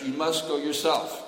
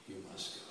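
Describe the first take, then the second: First: Loud, high plea with must stressed; pleading lament. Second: Soft, low, steady instruction; calm quiet command. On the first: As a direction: push the word must, grieving and urgent. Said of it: "And Uddhava was crying". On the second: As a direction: say it quietly and firmly. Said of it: "Narada spoke up". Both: Acted.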